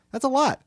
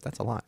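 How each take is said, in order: First: Much higher and louder, mock astonished; hammed-up disbelief at the discount; shocked. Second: Said in the usual way. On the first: Shown as a demonstration. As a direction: blurt it out in fake shock at the price.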